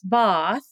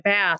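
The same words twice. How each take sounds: First: The vowel is a broad, open ah sound. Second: The vowel is a flat, front a sound.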